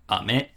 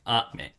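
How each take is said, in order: First: The pitch starts low and goes up. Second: The pitch starts high and goes down. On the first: It means candy. "goes up, starts down" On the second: It means rain. "starts high and goes down"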